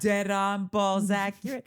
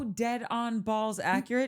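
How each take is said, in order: First: It is said in an imitated movie-character accent. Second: It is said in the speaker's ordinary accent.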